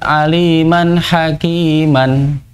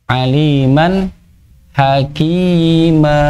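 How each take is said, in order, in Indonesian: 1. Frasa ini berakhir dengan bunyi n. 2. Frasa ini berakhir dengan vokal panjang.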